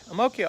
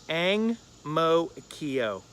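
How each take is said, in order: First: The name is said run together, local style. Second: The name is read carefully as written. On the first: This is how a local says the name. "But he pronounced it that way" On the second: This is how the writer read the name. "This is what I wrote down"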